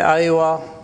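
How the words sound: The word starts with an open 'ah' vowel. This is the city form of yes. The speaker calls it wrong. "In the cities, they say Aiwa"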